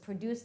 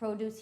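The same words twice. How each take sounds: First: The stress is on the second syllable. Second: The stress is on the first syllable. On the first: It is the verb meaning to make something. "the verb" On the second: It is the noun meaning fresh fruits and vegetables. "So you say it differently, produce, which is a noun"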